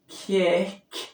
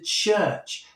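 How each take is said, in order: First: The word begins and ends with a k sound. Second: The word begins and ends with a ch sound. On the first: This is the older form of the word. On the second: This is the later form of the word.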